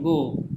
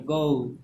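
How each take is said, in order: First: गो with one pure "o" vowel; गो with the vowel held steady, no "oo" ending; wrong pronunciation. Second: गो as a diphthong, "goh-oo"; corrected pronunciation. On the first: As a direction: say गो as a plain "goh", no glide. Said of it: "गो पढ़ते हैं वो गलत है". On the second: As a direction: let the vowel in गो glide into "oo". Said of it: "गो नहीं पढ़ते हैं". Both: Shown as a demonstration.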